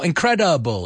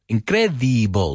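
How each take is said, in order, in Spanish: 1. La vocal después de 'cr' suena como 'ah'. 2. La vocal después de 'cr' suena como 'ee'. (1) "No, ... Esa E no suena como una I, suena como una A" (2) "You don't know how many times people say incredible"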